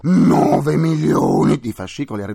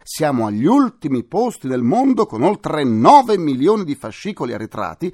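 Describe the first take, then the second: First: Nove punched louder; emphatic repetition. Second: Said in the usual way. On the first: Shown as a demonstration. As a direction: stress nove milioni, louder. (nove milioni scandito più forte) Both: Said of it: "e dico".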